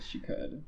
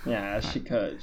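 First: Whispered aside. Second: Said in the usual way. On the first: Real, not acted. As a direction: breathe it as a whisper. Repeats agreement, then whispers it.

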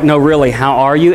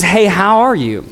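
First: Lower, earnest question ending in a rise; mean it, really want to know; a gentle probing how are you; sincere, really asking. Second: Quick, offhand hello in passing; a throwaway hey how are you; casual passing greeting. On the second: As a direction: toss it off like small talk. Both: Retold or imitated. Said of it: "one of those ones where it's like".

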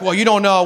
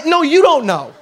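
First: Said in the usual way. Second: "you" punched high, then falling; stress on YOU. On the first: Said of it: "you're like". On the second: Acted. Preacher retorts to an excuse-maker, stress on "you". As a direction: throw it back, leaning hard on "you". Throws the excuse back at objector.

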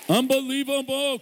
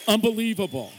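First: Even higher, held cheer; more excited. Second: A high, ringing exclamation; excited. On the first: Guest preacher urging the congregation's applause, high excited cheer. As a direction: top the first one, really belt the wonder. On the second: Guest preacher praising pastors to the church, excited. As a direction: marvel at them aloud. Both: Real, not acted.

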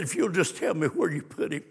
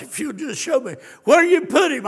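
First: Said in the usual way. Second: Higher, louder pleading. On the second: Acted. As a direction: beg with a lifted voice. Quoting Mary at the tomb.

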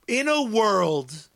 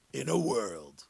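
First: Said in the usual way. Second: Much lower, softer "in a world" like a movie trailer; trailer announcer voice. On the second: Pretend. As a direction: drop into the deep trailer voice on "in a world".

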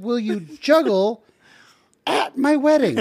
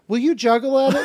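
First: Slow, high, each word spelled out: "Will you juggle"; disbelieving slow echo of the request; slow incredulous repeat. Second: Said in the usual way. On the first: Retold or imitated. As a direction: repeat it back slowly, stunned. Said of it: "It sounded like you said". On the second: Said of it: "And he goes".

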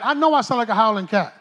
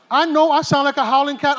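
First: Said in the usual way. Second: "know" pushed harder in the repeat; emphatic repeat. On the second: Shown as a demonstration. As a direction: hammer "know" the second time round.

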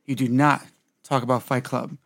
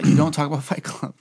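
First: "do not" set apart by pauses; weight on "not", then a beat; emphatic rule. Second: Said in the usual way. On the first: Shown as a demonstration. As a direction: recite it firmly, pausing after "do not". Repeating rule with emphatic wording.

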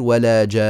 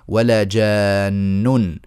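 First: "ولا جان" with a pause form stop, the final nun of "جان" held and cut, no vowel after it; stopping on the word. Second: "ولا جان" recited very slowly, the alif of "جان" stretched long in tajweed style; reciting with the long madd. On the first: Teacher shows students the pausal form, clipped stop on the nun. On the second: Teacher recites the verse to students, slow stretched madd. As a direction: draw out "جان" with a full six-count madd. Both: Shown as a demonstration. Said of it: "لما نقف عليها تصير".

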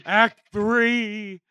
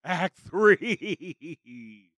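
First: Big booming act call; announcer call. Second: Said in the usual way. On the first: Shown as a demonstration. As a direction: announce it like a showman. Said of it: "Act Three, Bunny!".

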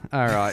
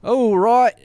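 First: Said in the usual way. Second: Loud, high comic Cockney call; put-on Cockney accent. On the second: Host wrapping up the show, loud mock Cockney accent. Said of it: "Now you do it Australian Cockney".

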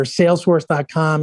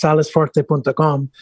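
First: Said in the usual way. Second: Salesforce said the Spanish way, extra syllables sounded out; Spanish pronunciation. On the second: Shown as a demonstration. American salesman showing how Spain says the company name, Spanish pronunciation. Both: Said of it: "in Spanish is pronounced".

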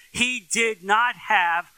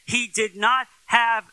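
Both takes have the same delivery.

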